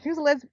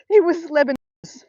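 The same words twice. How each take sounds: First: Said in the usual way. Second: "Lebanese" said louder and higher, laughing correction; corrected with emphasis. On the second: Real, not acted. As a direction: set the record straight loudly on "Lebanese".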